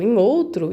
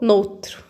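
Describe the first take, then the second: First: The two words are said separately and fully. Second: The two words are said quickly, merged into one. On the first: "ao invés de ficar falar em outro" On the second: "começaram a falar rapidão, rapidão, ficou noutro"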